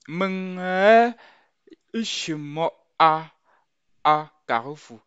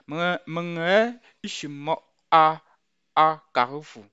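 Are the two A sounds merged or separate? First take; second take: separate; separate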